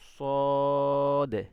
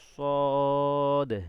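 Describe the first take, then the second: Both takes have the same delivery.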